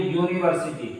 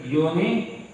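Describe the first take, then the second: First: Said in the usual way. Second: "university" split as uni, long pause, varsity; word broken in two. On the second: Shown as a demonstration. Teacher sounding out the example, "university" broken after uni. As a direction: say "university" in two separate, softer chunks. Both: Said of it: "जैसे हम कहें".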